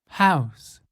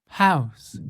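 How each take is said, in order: The two takes are said the same way.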